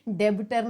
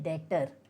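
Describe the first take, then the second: First: The b is sounded, giving three syllables. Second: The b is silent, giving two syllables. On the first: The speaker calls it wrong. "डेबिटर नहीं" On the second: The speaker calls it right. "इसका जो बी है वो silent है, तो हम इसे कहते हैं डेटर"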